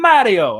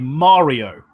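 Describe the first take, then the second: First: The name is said with an Italian pronunciation. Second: The name is said with an American pronunciation. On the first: The owner says his own name. The speaker calls it right. "my friend from Italy" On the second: An outsider mispronounces the name. The speaker calls it wrong. "American pronunciations"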